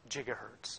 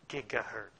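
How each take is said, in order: First: It begins with a soft j sound. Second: It begins with a hard g sound. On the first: The speaker calls it right. "I used the term gigahertz" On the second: The speaker calls it wrong. "not this gigahertz stuff that you guys are all probably doing"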